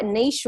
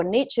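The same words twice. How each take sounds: First: Long ee and soft sh in niche; niche pronounced "neesh". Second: Short i and tch in niche; niche pronounced the American way, "nitch". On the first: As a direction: say niche to rhyme with leash. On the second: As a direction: say niche to rhyme with rich. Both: Shown as a demonstration. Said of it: "as you guys call it".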